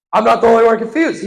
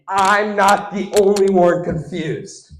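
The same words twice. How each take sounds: First: Fast, loud, high-pitched insistence; quick emphatic repeat. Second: Slow, raised-pitch announcement; drawn-out emphasis. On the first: Comic insisting to the crowd, quick and emphatic. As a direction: rattle it out louder and higher. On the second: Comic telling the crowd what he noticed, slow and emphatic. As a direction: stretch the words out slowly. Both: Shown as a demonstration. Repeats the line two ways.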